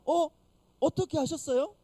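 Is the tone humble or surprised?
surprised. It is said in a surprised, astonished tone.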